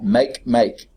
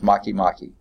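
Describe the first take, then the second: First: Each half sounds like the English word 'make'. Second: The halves do not sound like 'make'. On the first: "It's like make, make" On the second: "but I think it's pronounced Makemake"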